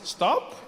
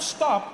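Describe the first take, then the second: First: It is said as a tentative suggestion. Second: It is said as a firm command.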